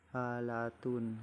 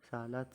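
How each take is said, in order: First: The word ends with a full 'tun' syllable. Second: The word ends with a 't' sound. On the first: This is the full Arabic form. "seperti halatun" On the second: This is the local Indonesian form. "dalam bahasa Nusantara dibaca salat"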